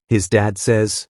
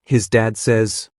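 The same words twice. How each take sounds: The two takes are said the same way.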